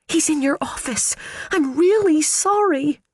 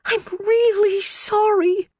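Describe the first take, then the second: First: Put-on high, panicky girlish voice; nervous high little voice; timid young secretary. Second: High, slow, tiny mewed apology; secretary mewing an apology to her boss. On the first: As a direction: squeak out an anxious apology. Phoebe confessing to Ellen. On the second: A narrator's reading. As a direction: mew it out pitifully. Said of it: "Phoebe mewed".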